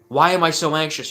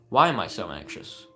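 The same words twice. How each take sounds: First: The question is asked in a frantic, judging way. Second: The question is asked calmly and curiously. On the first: The speaker is judging the feeling and wants it gone. The speaker calls it wrong. "your mind's all over the place" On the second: The speaker is open to finding the answer. The speaker calls it right. "there's a tonality change"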